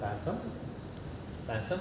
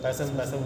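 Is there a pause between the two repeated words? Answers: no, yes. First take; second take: yes; no. First: A short pause separates the two words. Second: The two words run together without a pause. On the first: The speaker calls it right. "અલ્પવિરામમાં જરાક અટકવાનું છે" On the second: The speaker calls it wrong. "આપણે બધા સાથે બોલે છે ને"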